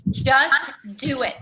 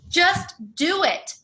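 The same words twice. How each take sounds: First: Just do it, repeated slowly and firmly; Just do it, each word stretched and pressed; slow emphatic repeat. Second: Just do it, dicho muy lento, cada palabra marcada; Just do it, slow and punched word by word; slow emphatic. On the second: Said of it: "that's the thing". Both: Real, not acted.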